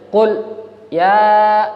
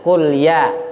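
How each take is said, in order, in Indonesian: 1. Ada jeda singkat setelah qul. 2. Qul langsung menyambung ke ya tanpa jeda. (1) "Ada berhenti sebentar. Nah, itu keliru" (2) "Mestinya qul ya"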